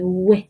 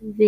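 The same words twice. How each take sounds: First: "و" said as English w with rounded lips. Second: "و" said as a relaxed v, lips unrounded; loose, soft V. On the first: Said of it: "این رو باید لباتون رو گرد کنه". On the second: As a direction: let "و" go loose as an English v. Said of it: "خیلی باید شل بگید". («و» شل، مثل v انگلیسی) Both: Shown as a demonstration.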